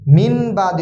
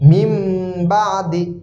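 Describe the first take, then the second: First: An n sound is said before the b. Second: An m sound is said before the b. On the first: The speaker calls it wrong. "মিন বাদি হবে না" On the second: The speaker calls it right. "মিম হবে"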